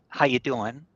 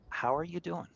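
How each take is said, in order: First: It is asked casually, expecting no real answer. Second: It is asked sincerely, really wanting the answer.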